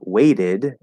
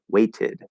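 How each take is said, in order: First: The middle consonant is a quick flap. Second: The middle consonant is a clear T. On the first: "with that T being a flapped D" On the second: "in British English ... it would be a T"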